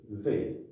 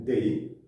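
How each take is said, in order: First: "they" with the tongue pushed between the teeth; correct th sound. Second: "they" said like day, with a hard d; wrong d sound. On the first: Teacher showing students the right th sound. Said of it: "didorong bunyinya pasti menghasilkan they". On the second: Teacher warning students against the d-sound they. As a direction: start "they" with a d, like the word day. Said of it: "Jangan they". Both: Shown as a demonstration.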